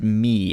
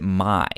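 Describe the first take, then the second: First: The name is said with an 'ee' vowel. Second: The name is said with an 'eye' vowel. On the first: "you pronounced it me" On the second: "I pronounced it my"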